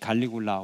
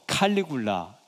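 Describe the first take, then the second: First: The name starts with a soft g sound. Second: The name starts with an aspirated k sound. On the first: "우리 옛날 발음식으로" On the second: "칼 이렇게도 발음하고"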